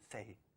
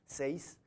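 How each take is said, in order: First: The final s sound is dropped or weakened. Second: The final s sound is clearly pronounced. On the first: This is how the local community speaks. "nosotros decimos seis" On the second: This is the standard written form. "a lo mejor si es seis"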